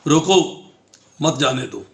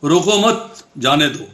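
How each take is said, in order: First: The pause comes right after the word roko. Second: The pause comes right after the word mat. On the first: Stop him and do not let him go. "उसको रोक लिया जाए और उसको जाने न दिया जाए" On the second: Do not stop him; let him go. "अब मैं यही चार शब्द फिर बोलता हूं"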